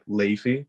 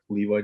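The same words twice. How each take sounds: First: The middle consonant sounds close to an f. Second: The middle consonant is a clear v sound. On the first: This is the Dutch way of saying the name. "they pronounce the V sort of like a F" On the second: This is the American way of saying the name. "from the pants, like Levi jeans"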